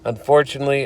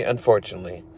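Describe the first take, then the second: First: Said in the usual way. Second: "unfortunately" lower and much softer, trailing off; resigned, dropping "unfortunately"; fading sigh. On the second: Shown as a demonstration. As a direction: let "unfortunately" sink away.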